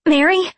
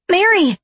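First: High, loud squawk with a questioning lift. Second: High, loud squawk falling at the end; squawked call. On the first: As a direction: squawk the name out as an alarmed question. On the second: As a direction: call out sharply after someone who has vanished. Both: A narrator's reading. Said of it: "I squawked".

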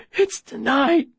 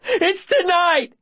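First: High, hoarse remnant of a shout; strained rasp. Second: Very high, drawn-out yell; desperate shout. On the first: Boy screamed out but still confessing, strained rasp. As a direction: force it out through a worn throat. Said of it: "but my voice is a rasp". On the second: Boy giving up the secret to save her, desperate shout. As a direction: shout the confession with everything. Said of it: "I shout". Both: Acted.

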